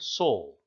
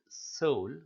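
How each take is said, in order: First: The S sound is heavy, with a full mouth. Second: The S sound is light and thin. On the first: The speaker calls it right. "We say he has a good soul" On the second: The speaker calls it wrong. "We don't say"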